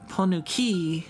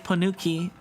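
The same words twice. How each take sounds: First: The word has a marked, showy inflection. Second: The word has a plain, flat inflection. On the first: It copies how someone else said it. "I liked how they pronounced it. It was funny" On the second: It is the speaker's own way of saying it. "I would just say ponuki"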